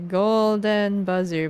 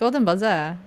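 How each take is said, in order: First: It is said in a plain, neutral accent. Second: It is said in a heavy put-on accent. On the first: "I can say it properly" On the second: "my mouth goes like"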